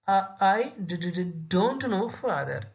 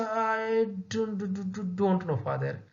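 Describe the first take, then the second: First: Halting, repeated d sounds in fear; a frightened girl stuttering before her father. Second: Frightened, stammering; fearful stutter. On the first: Shown as a demonstration. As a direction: stammer out the words like a scared child. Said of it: "she used to say". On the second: Retold or imitated. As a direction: stammer it out in fear. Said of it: "in a frightening, in a fearful manner".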